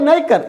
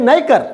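No difference in how they are said.

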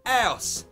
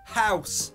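First: The word begins without an H sound. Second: The word begins with an H sound.

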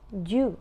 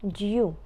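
First: It is said in an American accent. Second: It is said in a British accent. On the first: "в американському варіанті просто вимовляється due" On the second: "А в британському due"

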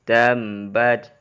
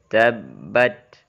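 First: Sound flows through the nose on the b. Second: The doubled b has no nasal flow. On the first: The speaker calls it wrong. "contoh yang keliru ... Mengalirnya suara dari hidung" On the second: The speaker calls it right.

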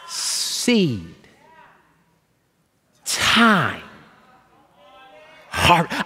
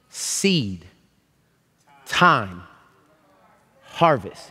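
First: The phrase is spoken very slowly, word by word. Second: The phrase is spoken at a somewhat slower pace. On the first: "read it even slower"

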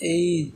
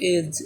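First: The vowel is an ay diphthong. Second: The vowel is a short plain e. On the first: The speaker calls it right. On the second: The speaker calls it wrong.

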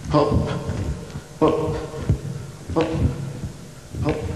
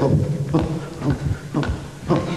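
First: The words are said at a slow pace. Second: The words are said at a fast pace. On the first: "Ihr könnt das langsam machen" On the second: "Ihr könnt auch schnell"

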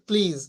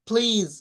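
First: The first p has no puff of air. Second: The first p has a puff of air. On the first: The speaker calls it wrong. "আমরা বলি প্লিজ" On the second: The speaker calls it right. "প্লিজ উচ্চারণ হবে"

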